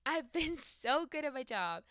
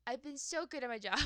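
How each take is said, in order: First: Slow, higher-pitched boast with SO stretched out; laugh, then draw out "so" proudly; "so" drawn out high and emphatic. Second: Said in the usual way. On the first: Real, not acted.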